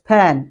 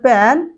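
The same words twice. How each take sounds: First: The p has a strong puff of air. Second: The p is plain, without a puff of air. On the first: The speaker calls it right. "it's pen" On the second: The speaker calls it wrong. "it's not pen"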